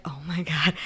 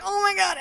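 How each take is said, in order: First: Said in the usual way. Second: Very high-pitched mock exclamation; high, imitated embarrassed outburst; mock horrified cry. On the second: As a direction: squeal it in put-on horror. She has just vomited on him.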